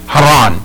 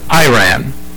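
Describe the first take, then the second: First: The name is said the native Iranian way. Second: The name is said the usual American way. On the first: "how the Iranian people pronounce it" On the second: "that's the way we pronounce it"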